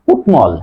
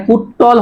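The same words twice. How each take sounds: First: কুটমল with t then clear m; correct pronunciation. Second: কুট্টল with doubled t and no m; wrong pronunciation. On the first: Teacher corrects the error, m sounded in কুটমল. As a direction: say "kutmol" for কুটমল. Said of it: "উচ্চারণ হবে". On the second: Teacher rules out the error, doubled t in কুট্টল. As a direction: say "kuttol", m dropped, for কুট্টল. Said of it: "এটা কুট্টল হবে না". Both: Shown as a demonstration.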